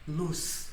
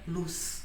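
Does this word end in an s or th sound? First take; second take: s sound; s sound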